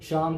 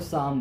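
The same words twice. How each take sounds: First: The word begins with an sh sound. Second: The word begins with an s sound. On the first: The speaker calls it right. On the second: The speaker calls it wrong.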